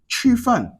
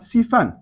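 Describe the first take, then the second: First: The word begins with a 'sh' sound. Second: The word begins with a plain 's' sound. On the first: The speaker calls it right. "pour dire Chufan" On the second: The speaker calls it wrong. "ils vont dire maintenant Sifan"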